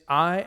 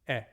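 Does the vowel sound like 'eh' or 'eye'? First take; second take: eye; eh. First: The vowel sounds like 'eye' in aisle. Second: The vowel sounds like 'eh' in get. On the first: This is the classical Erasmian pronunciation. "under the Erasmian pronunciation, it is I as in aisle" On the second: This is the Koine and modern pronunciation. "under the Koine and the modern pronunciation? It's like E in get"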